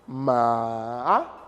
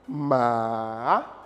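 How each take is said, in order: No difference in how they are said.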